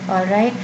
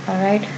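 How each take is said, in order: The two takes are said the same way.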